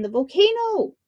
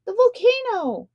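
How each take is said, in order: First: High alarmed shout. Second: High alarmed call; crying out. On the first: Punia yelling again to wake the shark king, high shout. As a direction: call it out like a false alarm. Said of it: "he shouted again". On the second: Punia shouting a false alarm at the shark king, high cry. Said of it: "he cried". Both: A narrator's reading.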